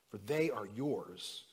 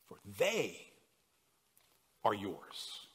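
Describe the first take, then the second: First: It is read plainly, without special emphasis. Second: Some words are read with strong emphasis.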